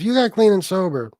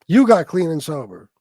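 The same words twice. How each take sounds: First: Said in the usual way. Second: "you" punched loud at the start; forceful emphasis on "you"; stress on YOU. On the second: Real, not acted. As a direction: hit "you" hard, then let the rest follow. Repeats it to credit the person.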